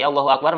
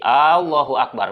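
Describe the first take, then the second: First: The first vowel of Allah is short. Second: The first vowel of Allah is drawn out. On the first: It states that God is great. The speaker calls it right. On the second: It asks whether God is great. The speaker calls it wrong. "dipanjangkeun hamzahna eta mah jadi menanyakan"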